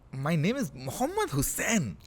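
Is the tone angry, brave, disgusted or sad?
disgusted. It is said in a disgusted tone.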